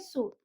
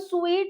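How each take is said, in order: First: The vowel sounds like a long oo. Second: The vowel sounds like a long ee. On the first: The speaker calls it right. "इसको हम बोलेंगे सूट" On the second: The speaker calls it wrong. "इसको हम स्वीट नहीं बोलेंगे"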